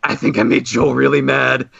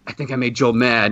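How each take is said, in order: First: Really leaned on, a touch worried; stress on really. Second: Said in the usual way. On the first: Retold or imitated. Fan confiding to Jonah, weight on really. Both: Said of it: "I was like".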